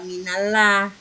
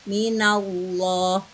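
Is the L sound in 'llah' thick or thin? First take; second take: thin; thick. First: The L in 'llah' is thin and light. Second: The L in 'llah' is thick and heavy. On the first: The speaker calls it wrong. "bukan minallah" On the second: The speaker calls it right. "maka dibacanya loh"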